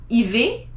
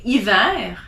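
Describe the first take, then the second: First: "hiver" ending in an ay sound, ee-vay; the wrong way, "hiver" said ee-vay. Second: "hiver" ending in an open eh sound, ee-vair; the correct "hiver", ee-vair; right hiver. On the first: Teacher showing students the wrong "hiver". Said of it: "you don't say hiver". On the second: Teacher showing students the correct "hiver". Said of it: "you say hiver". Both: Shown as a demonstration.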